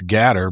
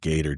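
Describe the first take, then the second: First: The first vowel sounds like 'cat'. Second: The first vowel sounds like 'gate'. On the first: This is how one particular person says it. The speaker calls it wrong. "if you're Doctor Disrespect, it's Gatter" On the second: This is the usual pronunciation. The speaker calls it right. "but no, it's always Gator"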